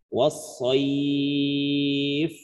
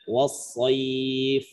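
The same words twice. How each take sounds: First: The long vowel is held for four counts. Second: The long vowel is held for two counts. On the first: "boleh empat" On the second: "Boleh dua"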